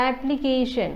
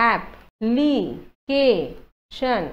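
First: Said in the usual way. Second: "এপ, লি, কে, শ্যন" as four isolated syllables; long pause after each of এপ, লি, কে, শ্যন. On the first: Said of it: "এপ্লিকেশ্যনটো কেনেকুৱা হ'ব". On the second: Shown as a demonstration. Teacher breaking up application, "এপ, লি, কে, শ্যন" one at a time. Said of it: "গতিকে চাৰিটা syllable হ'ব".

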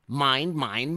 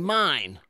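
First: Loud, high greedy roar rising on "mine"; roaring monster. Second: Loud, high final "mine!" falling hard; roaring monster. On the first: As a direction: bellow "mine, mine" like a greedy dinosaur. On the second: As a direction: slam down the last "mine!" like a bully. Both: Acted. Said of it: "they heard a roar".

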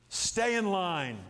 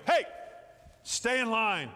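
First: Slow emphatic stay in line. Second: Mildly raised teacher call; teacher calling hey. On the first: Shown as a demonstration. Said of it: "It means stay in the line". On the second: Retold or imitated. Teacher telling the children to stay in line, firm call. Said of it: "Then you go".

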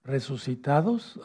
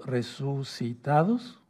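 First: "Resucitados" lento y seguido; dictado. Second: "resucitados" muy lento, por sílabas; dictado silabeado. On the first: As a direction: dicta "Resucitados" para que lo anoten. ("Resucitados" pausado, con final ascendente) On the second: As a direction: alarga "resucitados" para que lo copien. ("resucitados" en dictado despacioso, con final ascendente) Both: Shown as a demonstration. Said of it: "anótenlo".

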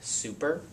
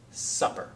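First: "super" with a long oo and a rising tune; long vowel demo. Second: "supper" with a short clipped uh, set against super; short vowel demo. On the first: A teacher contrasting "super" for students, long oo. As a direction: sound "super" as soo-per, rising. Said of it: "you have long I". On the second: A teacher contrasting "supper" for students, short u. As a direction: say "supper" as sup-per, first vowel short. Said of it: "short I". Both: Shown as a demonstration.

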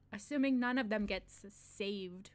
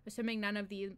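First: Slow whispered air-quote on saved; sly slow whisper for the quoted word; whispered aside. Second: Said in the usual way. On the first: Shown as a demonstration. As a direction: whisper assuming none of them gets saved slowly.

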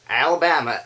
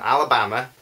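First: Alabama in an American accent, slightly higher; film-influenced American accent. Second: Said in the usual way. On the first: Shown as a demonstration. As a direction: slip into American for the place name. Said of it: "say Alabama in an American accent". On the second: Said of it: "difficult not to say Alabama".

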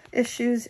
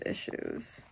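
First: Said in the usual way. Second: Issues whispered, trailing into breath. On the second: Real, not acted. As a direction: let "issues." fade to a whisper. Repeating issues, fading away.

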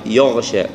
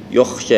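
First: "يغشى" with a voiced gargled gh; correct ghayn. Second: "يخشى" with a voiceless kh in place of gh; ghayn as kha. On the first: Teacher correcting the kha mistake, voiced gh. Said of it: "إلى يغ". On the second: Teacher showing the wrong sound, gh become kh. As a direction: devoice the gh into "يخشى". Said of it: "يبدأ لها خاء". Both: Shown as a demonstration.

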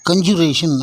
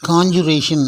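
First: கன்ஜுரேஷன் with short kun at the start; wrong pronunciation. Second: காஞ்சுரேஷன் with open KON at the start; correct pronunciation. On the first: Teacher shows learners the mistake, mispronounced கன்ஜுரேஷன். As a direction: say kun-joo-RAY-shun for கன்ஜுரேஷன். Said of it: "அப்படின்னு சொல்லக்கூடாது". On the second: Teacher models the noun for learners, correctly pronounced காஞ்சுரேஷன். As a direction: say KON-joo-RAY-shun for காஞ்சுரேஷன். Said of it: "அப்படின்னு சொல்றது போல". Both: Shown as a demonstration.

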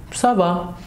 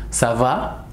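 First: Ça va with a falling answer tune; ça va said as a reply. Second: Ça va with a rising question tune; ça va asked as a question. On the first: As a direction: state it, settling down. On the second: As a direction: ask it, voice going up. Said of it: "Atención solamente a la entonación". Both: Shown as a demonstration.

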